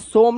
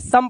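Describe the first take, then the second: First: The vowel is pronounced as a long 'o'. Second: The vowel is pronounced as a short 'uh'. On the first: The speaker calls it wrong. "सोम नहीं पढ़ना है" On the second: The speaker calls it right. "सम पढ़ना है"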